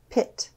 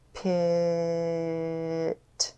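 First: The word is said quickly as one smooth word. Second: The word is stretched out slowly, sound by sound. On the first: "And now we're going to say it fast like a word" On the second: "Let's tap and stretch one more time"

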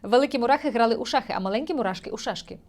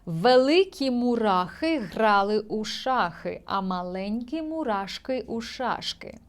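First: It is said quickly, at a fast pace. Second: It is said at a normal, unhurried pace.

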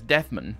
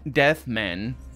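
First: The two words run together as one. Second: The two words are said separately. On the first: "it's all one word" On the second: "instead of saying"

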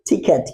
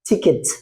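First: The second syllable sounds like 'ket'. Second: The second syllable sounds like 'kit'. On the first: The speaker calls it wrong. "কি বলছি আমরা?" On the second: The speaker calls it right. "কিন্তু উচ্চারণটা কি হবে?"

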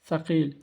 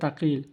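First: The word begins with an s sound. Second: The word begins with a t sound. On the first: The speaker calls it right. "এখানে আমি আরবিটি লিখে রেখেছি সাকিল" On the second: The speaker calls it wrong. "কেউ বলে তাকিল, ভুল"

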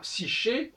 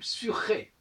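First: The word is said with a French pronunciation. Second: The word is said with a Greek pronunciation. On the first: The speaker calls it wrong. "on ne dit pas psyché" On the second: The speaker calls it right. "en grec, on dit psyché"

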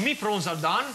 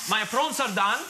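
First: The pronoun is said as a northern "me". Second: The pronoun is said as a standard "my".

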